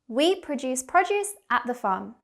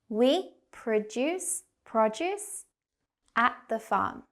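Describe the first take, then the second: First: The sentence is spoken quickly. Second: The sentence is spoken slowly. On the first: "Now faster, like a native speaker" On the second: "we'll go slow"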